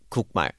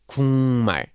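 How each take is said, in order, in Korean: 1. 첫 음절은 k 소리로 끝나요. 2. 첫 음절은 ng 소리로 끝나요. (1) "not 국말" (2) "it becomes something 국말"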